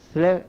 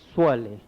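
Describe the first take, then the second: First: The first s is plain and light. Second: The first s is heavy and emphatic. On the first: It would mean to kill. The speaker calls it wrong. "स्ले नहीं" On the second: It means to send blessings. The speaker calls it right.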